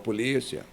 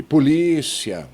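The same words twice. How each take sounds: First: Said in the usual way. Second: "polícia" loud and slow, stretching LÍ; stress on LÍ. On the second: Shown as a demonstration. ("polícia" em voz alta, alongando o LÍ) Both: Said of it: "Vamos falar de novo".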